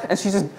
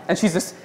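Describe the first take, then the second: No difference in how they are said.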